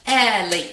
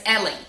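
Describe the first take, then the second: First: "Ellie" split into two loud beats; two syllables. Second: Said in the usual way. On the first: Shown as a demonstration. Teacher counting two syllables in daughter's name, split Ellie. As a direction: break "Ellie" in two, first beat punched. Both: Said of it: "Two syllables".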